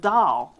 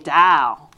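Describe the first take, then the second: First: The final L sound is clearly pronounced. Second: The final L sound is dropped, like dow. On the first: The speaker calls it right. "I was having trouble pronouncing the word doll" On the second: The speaker calls it wrong. "And I would say dow, dow. And that wasn't getting it"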